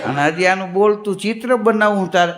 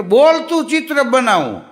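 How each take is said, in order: First: Bitter echo leaning on બોલતું; mock the word બોલતું with disgust; fed-up husband repeating the painter; annoyed sarcasm. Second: Proud street painter selling his art, a bit higher; bragging painter's pitch; boastful painter. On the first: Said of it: "ઓલાને મગજ ગયો". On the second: Retold or imitated. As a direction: brag about the talking portrait. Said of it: "અરે મને ઈ કે".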